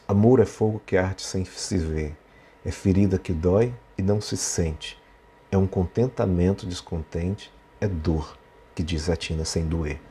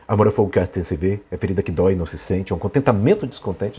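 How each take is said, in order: First: It is read slowly and spread out. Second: It is read quickly and hurried.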